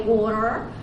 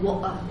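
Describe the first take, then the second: First: The middle T is a quick flap. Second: The middle T is a glottal stop. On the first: "the Americans say water" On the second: "the British say butter and water"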